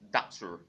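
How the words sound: It is said in a General American accent.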